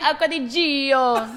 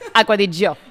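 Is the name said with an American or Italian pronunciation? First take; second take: American; Italian. First: The name is said with an American pronunciation. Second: The name is said with an Italian pronunciation. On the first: The speaker calls it wrong. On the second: The speaker calls it right.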